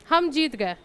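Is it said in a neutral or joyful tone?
neutral. It is said in a plain, neutral tone.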